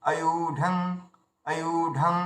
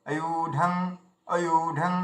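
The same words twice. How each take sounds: No difference in how they are said.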